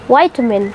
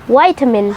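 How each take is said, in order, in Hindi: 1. पहले अक्षर में लंबा 'eye' वाला उच्चारण है। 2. पहले अक्षर में लंबा 'eye' वाला उच्चारण है।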